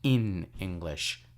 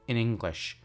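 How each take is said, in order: First: The word in is said long and full. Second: The word in is said short and reduced. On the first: The speaker calls it wrong. "not in English" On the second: The speaker calls it right. "you would say in English"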